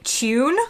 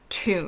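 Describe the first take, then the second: First: It is said with a British pronunciation. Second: It is said with an American pronunciation. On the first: "they say tune. Hope I got that right" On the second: "in the U S, we say tune"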